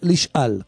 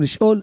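First: The last syllable has an 'a' vowel: lishal. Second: The last syllable has an 'o' vowel: lishol. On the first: The speaker calls it right. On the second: The speaker calls it wrong. "לא אומרים לשאול"

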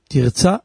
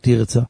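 First: The stress is on the last syllable. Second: The stress is on the first syllable. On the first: The speaker calls it right. "מלרה" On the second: The speaker calls it wrong. "ולא תרצה"

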